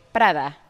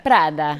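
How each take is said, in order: First: "Prada" with a tapped Spanish r, understated; Spanish pronunciation. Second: "Prada" low, with Italian flair on the rolled r; Italian with attitude. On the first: Showing the Italians her Spanish version of Prada, Spanish pronunciation. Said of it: "In Spanish, we would say". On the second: Contrasting it with plainer Spanish, Italian Prada with attitude. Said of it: "doesn't have as much attitude, like". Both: Shown as a demonstration.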